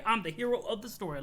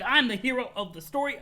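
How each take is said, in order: First: Said in the usual way. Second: A touch higher, proud; John boasting to himself, mock hyped; hyped hero. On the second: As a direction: play it up as the eager hero. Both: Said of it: "He's like".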